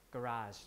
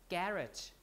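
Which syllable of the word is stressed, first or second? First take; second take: second; first. First: The stress is on the second syllable. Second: The stress is on the first syllable. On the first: "in American pronunciation, we would pronounce it like garage ... And then the stress is here" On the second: "in British English, they pronounce it ... we say that the stress should fall on the first syllable"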